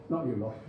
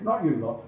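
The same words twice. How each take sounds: First: Repeated much softer and lower, almost under the breath; quiet aside. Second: Said in the usual way. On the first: Real, not acted. Lecturer to his students, not you lot, softly. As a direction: drop it to a murmur.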